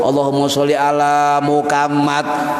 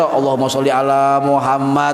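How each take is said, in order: First: It is said stiffly with a Javanese accent. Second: It is said with standard Arabic pronunciation.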